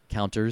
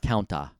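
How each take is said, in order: First: It is said with an English R sound. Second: It is said without any R sound.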